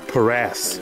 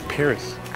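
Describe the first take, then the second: First: The name ends with an 'ass' sound. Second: The name ends with an 'iss' sound. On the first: "Because it says the word ass" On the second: "It's Paris"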